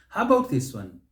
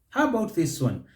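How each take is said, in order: Both takes have the same delivery.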